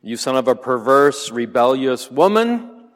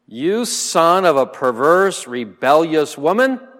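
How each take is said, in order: First: Loud but a touch less heated king's insult; re-read angry insult. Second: Loud, higher-pitched furious king's insult; angry insult. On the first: Teacher repeats Saul's insult to the class, firmly angry. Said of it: "what did you say?". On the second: Saul berates his son Jonathan, enraged and loud. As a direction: spit the insult at your son in rage. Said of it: "Then Saul's anger burned against Jonathan". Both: Acted.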